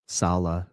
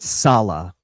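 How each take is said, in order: First: The stress is on the second syllable. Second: The stress is on the first syllable. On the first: The speaker calls it right. "with the emphasis on the second uh, syllable" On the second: The speaker calls it wrong. "It's not Salah, right?"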